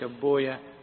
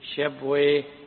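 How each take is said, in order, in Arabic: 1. ينتهي الاسم بصوت "-uya". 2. ينتهي الاسم بصوت "-wayh". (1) "وإنما يقال راهويا سيبويا شبويا" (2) "فاللغويون يقولون ويه"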